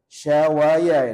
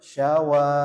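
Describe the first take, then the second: First: An extra ya syllable is added at the end. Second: The last vowel is held long, no extra syllable. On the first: The speaker calls it wrong. "syawaya ini pasti bacanya" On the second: The speaker calls it right. "bacanya panjang dua harokat"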